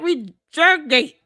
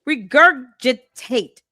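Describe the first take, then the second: First: The 'gi' syllable is left out, giving three syllables. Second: All four syllables are pronounced, including 'gi'. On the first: The speaker calls it wrong. "She said regurgate" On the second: The speaker calls it right. "Break it down"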